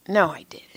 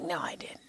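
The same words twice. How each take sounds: First: Said in the usual way. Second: Whispered, voiceless retold denial. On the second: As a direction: whisper it as if refusing to believe it. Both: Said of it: "I wanna be in denial".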